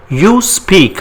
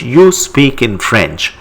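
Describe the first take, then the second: First: You speak, pitched up as a cue; teacher prompt. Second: Said in the usual way. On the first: Shown as a demonstration. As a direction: ask the class to translate. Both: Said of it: "How do you say it?".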